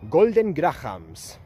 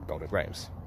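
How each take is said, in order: First: It is said with a Spanish accent. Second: It is said with a plain English accent.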